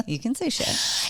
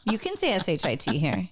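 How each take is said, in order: First: Said in the usual way. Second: S H I T spelled letter by letter. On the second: Shown as a demonstration.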